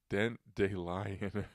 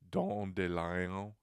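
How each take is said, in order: First: The first word is read as spelled in English. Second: The first word is said like French 'don'. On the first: The speaker calls it wrong. "The way it looks is" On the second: The speaker calls it right. "it's got to be like"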